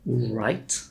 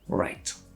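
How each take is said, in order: First: A W sound is pronounced before the R. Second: No W sound is pronounced before the R. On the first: The speaker calls it wrong. "not right" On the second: The speaker calls it right. "just right"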